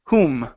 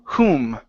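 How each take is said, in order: The two takes are said the same way.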